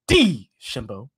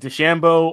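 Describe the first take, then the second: First: The name is said with an exaggerated French-style 'D'. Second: The name is said in a plain English way. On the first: The speaker wants to seem cultured. "go real hard on the inflection when it comes to the D" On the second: The speaker is not trying to sound worldly. "Everybody's either like DeChambeau"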